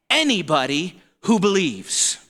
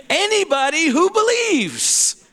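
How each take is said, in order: First: Said in the usual way. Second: Higher repeat. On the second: Shown as a demonstration.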